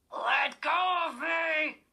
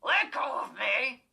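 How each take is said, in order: First: Slow, high, loud cry of panic; terrified girl yelling at the dummy to let go; panicked shout. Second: Loud, rumbling snarl of a dummy; the evil dummy snarling back at the girl; raspy snarl. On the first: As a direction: scream it as he grabs you. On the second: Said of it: "he snarled in his raspy, deep rumble". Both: A narrator's reading.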